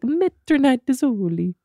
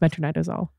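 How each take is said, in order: First: It is said in an Italian-sounding accent. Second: It is said in a plain, ordinary accent. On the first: "With the Italian accent? Yeah" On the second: "the medication is metronidazole"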